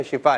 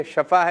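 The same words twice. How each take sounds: First: شفا said as "shifa", with a short i; correct pronunciation demo. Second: شفا said as "shafa", with an a in the first syllable; mispronunciation demo. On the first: Host shows children the proper word, شفا pronounced "shifa". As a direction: make the first syllable of شفا "shi". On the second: Host shows children a common mistake, شفا pronounced "shafa". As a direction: open the first vowel of شفا to "sha". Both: Shown as a demonstration. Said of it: "تلفظ بھی لے سکتے ہیں".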